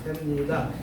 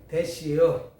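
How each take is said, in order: First: It is said in standard Korean. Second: It is said in Chungcheong dialect.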